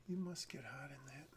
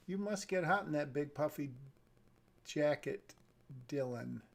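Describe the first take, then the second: First: Soft whisper, rising on the start; whispered line. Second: Said in the usual way. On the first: Shown as a demonstration. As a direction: breathe the line like a question. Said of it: "This doesn't really sound like a question". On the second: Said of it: "doesn't really sound like a question".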